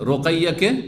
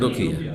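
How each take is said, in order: First: The middle syllable has an 'ai' sound. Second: The middle syllable has a plain 'i' sound. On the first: The speaker calls it right. "রোকাইয়া মেয়ের নাম" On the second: The speaker calls it wrong. "বিকৃত করা স্বভাব আমাদের"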